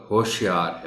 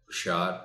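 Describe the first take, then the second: First: ہوشیار with a long o, hoh-shi-yaar; full basic form. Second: ہوشیار with short u, hush-yaar; shortened poetic form. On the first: Teacher giving the basic word ہوشیار, long first vowel. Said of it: "بنیادی طور پر". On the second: Teacher showing the verse form of ہوشیار, first vowel shortened. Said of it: "مختصر شکل". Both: Shown as a demonstration.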